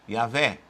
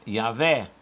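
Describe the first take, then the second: No difference in how they are said.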